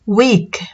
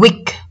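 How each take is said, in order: First: The vowel is said long, like ee. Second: The vowel is said short. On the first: The speaker calls it right. "dibaca dengan huruf I atau E yang panjang" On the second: The speaker calls it wrong. "bukan weak"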